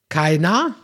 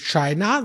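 First: The word begins with a k sound. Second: The word begins with an sh sound. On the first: "sondern mit K sagst" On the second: "nicht mit Sch wie China"

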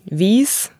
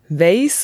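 First: High Alemannic: the vowel is a long i. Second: Swabian: the vowel is a diphthong.

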